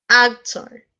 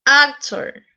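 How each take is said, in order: First: Said in the usual way. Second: ACtor, first syllable raised; stress on first syllable. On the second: Shown as a demonstration. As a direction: hit the AC of Actor. (acento en AC de Actor) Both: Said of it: "se carga la voz".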